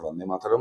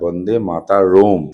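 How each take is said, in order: First: It is said with a plain native pronunciation. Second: It is said with a mocking foreign-sounding pronunciation. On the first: This is how we say it. "আমরা তো বন্দে মাতরম বলি" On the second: This is how the other side says it. "ওদের ক্ষেত্রে ব্যাপারটা বন্দে মাতারোম"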